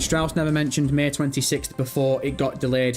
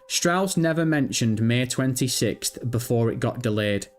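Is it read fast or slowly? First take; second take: fast; slowly. First: It is read quickly. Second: It is read slowly.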